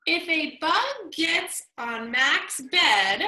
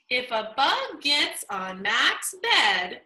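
First: Slow, pausing after bed; comma pause. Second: Slow reading, breath after bed; pause after the comma. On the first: Teacher reading aloud, showing a comma pause. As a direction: hold a beat at the comma. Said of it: "notice another comma". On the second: Teacher rereading to model the comma pause. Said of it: "Again, take a breath". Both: Shown as a demonstration.

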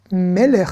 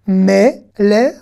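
First: Said in the usual way. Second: "Melech" slowly as me, le, then a separate ch; syllable by syllable. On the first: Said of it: "Je relis". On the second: Shown as a demonstration. Teacher decoding the Hebrew word for king, syllable by syllable. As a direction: sound out each piece of "Melech". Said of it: "on va faire consonne plus voyelle".

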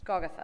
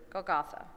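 First: Golgotha stressed on the first syllable; corrected stress in Golgotha. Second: Golgotha stressed on the middle syllable; misplaced stress in Golgotha. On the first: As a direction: say Golgotha as GOL-goth-a. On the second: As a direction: say Golgotha as gol-GOTH-a. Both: Real, not acted. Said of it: "Golgotha, excuse me".

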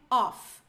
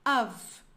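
First: "off" said slowly, with an open o and an f ending. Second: "Of" said firmly and louder, with a v ending; correct of. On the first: Teacher contrasts off with of on the board, slowly. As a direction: show what real "off" sounds like, slowly. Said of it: "Eu vou falar off é isso aqui". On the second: Teacher gives students the correct word, firm of. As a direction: land "Of" cleanly, like a model answer. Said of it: "Isso aqui em cima que nós temos é of". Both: Shown as a demonstration.

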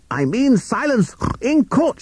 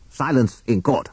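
First: Very high, slow, strained command; drawn-out, high-pitched courtroom shout; shouting pig judge. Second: Higher-pitched call for order at normal volume; restrained courtroom command; annoyed judge. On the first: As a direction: insist on silence as an exasperated judge. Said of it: "shouted Justice Pig". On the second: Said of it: "to show how annoyed he was". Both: A narrator's reading.

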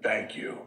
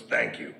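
First: Said in the usual way. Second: Lower, rough mock thanks; a hint of a gruff coach grudgingly thanking; gruff thank you. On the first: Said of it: "he said". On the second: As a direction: tough coach accepting an apology, gruff. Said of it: "like, a real gruff guy".

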